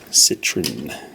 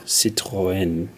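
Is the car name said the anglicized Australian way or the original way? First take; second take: Australian; original. First: The name is said with an anglicized Australian pronunciation. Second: The name is said with its original French pronunciation. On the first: This is how people locally call it. "as we call it in Australia" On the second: This is the proper pronunciation. "if I was to pronounce it properly"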